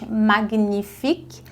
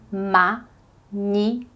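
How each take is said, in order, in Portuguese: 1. O 'gn' é dito como um g forte e depois n. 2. O 'gn' é dito como um único som 'ny'. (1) "A gente não diz" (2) "a gente diz"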